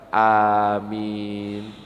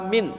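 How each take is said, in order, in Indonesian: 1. Kedua vokal dipanjangkan. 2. Vokal pertama dipanjangkan. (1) "yang betul adalah A-nya panjang, min-nya panjang" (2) "Ada yang A-nya dipanjangkan"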